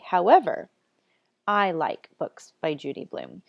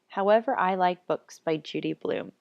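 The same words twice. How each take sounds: First: There is a clear pause after however. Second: It runs on with no pause after however. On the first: The speaker calls it right. "to show that you need to take a pause after however" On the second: The speaker calls it wrong. "It doesn't sound right"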